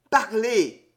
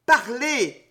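First: Pressing, insistent demand; first urging, still held a little back; urgent plea. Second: More urgent plea. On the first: Count urges the stranger to speak, insistent. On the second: Count begs the stranger to explain, rising urgency. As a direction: press the demand up a notch. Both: A narrator's reading. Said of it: "d'une voix rauque, il râla".

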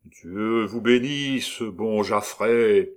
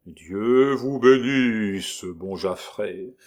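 First: Slow lugubrious chorus. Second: Very slow, hollow graveyard voice; sepulchral voice. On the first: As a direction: intone it like a dirge. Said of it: "d'une seule voix, lente, lugubre et profonde". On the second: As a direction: intone it from beyond the grave. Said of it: "d'une voix sépulcrale". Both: Acted.

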